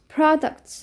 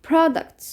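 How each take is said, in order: No difference in how they are said.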